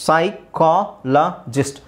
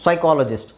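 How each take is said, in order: First: ಸೈಕಾಲಜಿಸ್ಟ್ slowly in four separate pieces, sai, kaa, la, jist; syllable-by-syllable demo. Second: Said in the usual way. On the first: Shown as a demonstration. Teacher drills learners on silent P, ಸೈಕಾಲಜಿಸ್ಟ್ slowly split into syllables. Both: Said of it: "ಸೈ ಅಂತಲೇ ಹೇಳಬೇಕು".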